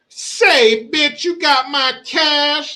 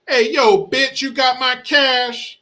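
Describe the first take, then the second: First: It is said with heavy pimp swagger. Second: It is said with little pimp swagger.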